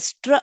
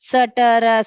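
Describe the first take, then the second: First: The three consonants are blended without vowels. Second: Vowels are inserted between the three consonants. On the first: The speaker calls it right. "ஸ்ட்ர அப்படி படிக்கணும்" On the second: The speaker calls it wrong. "சட்டர அப்படி படிக்க கூடாது"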